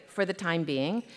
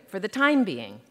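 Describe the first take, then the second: First: "for the time BEING", softer, lifting at the end; stress on BEING. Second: "for the TIME being", falling after "time"; stress on TIME. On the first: Author reading the phrase one way, stress on "being". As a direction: keep "time" light and let "being" rise. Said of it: "sometimes reading it one way". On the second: Author reading the phrase another way, stress on "time". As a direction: hit "time" and let "being" drop. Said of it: "and sometimes another way". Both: Shown as a demonstration.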